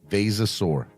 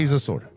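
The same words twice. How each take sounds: First: It is said at a normal pace. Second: It is said quickly.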